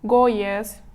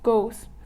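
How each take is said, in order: First: The es ending is sounded as an extra syllable. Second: The word is said as a single syllable. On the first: The speaker calls it wrong. "олай емес" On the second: The speaker calls it right.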